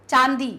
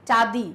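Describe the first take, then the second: Both takes have the same delivery.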